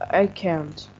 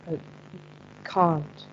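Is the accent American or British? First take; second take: American; British. First: It is said in an American accent. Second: It is said in a British accent.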